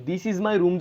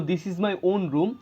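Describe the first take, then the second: First: Said in the usual way. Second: "This is my own room" very slow, leaning on my and own; stress on own. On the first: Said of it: "এই ওনটা কিন্তু না বললেও হইতো". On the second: Shown as a demonstration. Teacher contrasting the sentence with and without own, stressing own. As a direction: drag it out and press own hard. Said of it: "জোর দিয়ে বলতেছি".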